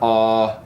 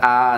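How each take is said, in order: First: It sounds big and resonant. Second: It sounds flat, without resonance.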